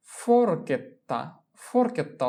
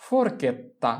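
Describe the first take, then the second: First: ফোরকেত্তা said slowly with the double t held; slow ফোরকেত্তা down for the class; slow model pronunciation. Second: Said in the usual way. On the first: Shown as a demonstration. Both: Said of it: "teacher models pronunciation".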